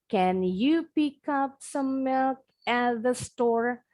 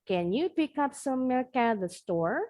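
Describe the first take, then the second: First: The sentence is said slowly. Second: The sentence is said at medium speed. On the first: "kita pelan-pelan" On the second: "Makin lama, makin cepat"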